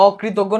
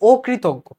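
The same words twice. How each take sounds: First: অকৃতজ্ঞ begun with an open "ɔ": "ɔ-kritoggo"; read as spelt. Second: অকৃতজ্ঞ begun with a closed "o": "o-kritoggo"; o-like first vowel. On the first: Teacher reading it as students write it, open first vowel. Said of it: "normal যেভাবে লিখো সেভাবে". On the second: Teacher correcting the written reading, o-like first vowel. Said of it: "এখানে অটা ও এর মতো". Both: Shown as a demonstration.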